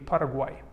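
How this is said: The name is said with a Spanish pronunciation. The speaker calls it right. "in Spanish it would be Paraguay"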